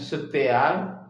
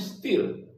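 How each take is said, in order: First: It is read letter by letter, in three syllables. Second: It is said as one short syllable. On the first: This is how the spelling looks. "Udah jelas bacanya setial" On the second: This is how it is actually read. "rupa bacanya steal"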